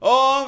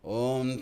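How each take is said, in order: First: It is shouted loudly. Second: It is intense but not shouted. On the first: The speaker calls it wrong. "मतलब shouting नहीं होता है, ओम ऐसे नहीं" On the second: The speaker calls it right. "Intensity होनी चाहिए"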